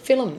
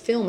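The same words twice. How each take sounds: First: The word is said in a Koori accent. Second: The word is said in a standard accent. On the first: "that's the way he pronounces, and the majority of Koori's pronounce it" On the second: "told to pronounce it the proper way"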